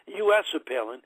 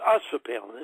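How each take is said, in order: First: US is spelled out as two letters. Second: US is said as the single word us. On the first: "I was always saying U S for Palin" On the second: "but it's us for Palin"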